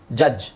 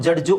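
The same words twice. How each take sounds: First: ಜಡ್ಜ್ said as jaj, no d; silent D. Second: ಜಡ್ಜು with a sounded d and final u; local pronunciation. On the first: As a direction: drop the d in ಜಡ್ಜ್, ending on a bare j. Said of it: "ಡಿ silent ಮಾಡಿ ಜಡ್ಜ್ ಅಂತ". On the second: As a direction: say ಜಡ್ಜು as jad-ju. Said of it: "ನಾವು ಜಡ್ಜು ಅಂತ ಹೇಳ್ತೀವಿ". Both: Shown as a demonstration.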